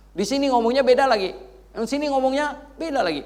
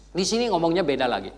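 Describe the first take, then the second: First: Naik keras. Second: Said in the usual way. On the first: Acted. Mengulang dengan makin keras.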